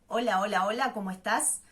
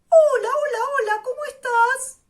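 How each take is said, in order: First: It is said in a low chest voice. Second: It is said in a high head voice.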